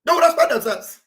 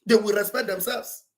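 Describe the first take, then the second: First: "They will respect themselves" said higher and louder, hitting "they"; louder repeat. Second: Said in the usual way. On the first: Shown as a demonstration. Speaker warning enemies, repeating the line raised and loud. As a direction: hammer it home the second time.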